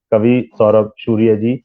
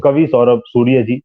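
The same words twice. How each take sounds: First: सूर्य said as शूर्य with a sh sound; slushy sh for s. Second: Said in the usual way. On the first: Shown as a demonstration. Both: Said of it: "मैं सूर्य बोल रहा हूँ".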